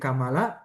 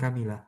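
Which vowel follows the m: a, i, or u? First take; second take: a; i. First: The vowel after the m is a. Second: The vowel after the m is i. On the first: "bi fathil mim jadi Kamala" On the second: "bi kasril mim jadi Kamila"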